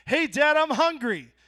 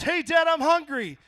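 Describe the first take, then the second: First: Put-on kid voice. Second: Put-on whiny kid voice. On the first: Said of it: "I'd be like". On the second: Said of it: "if my kid walks in and goes".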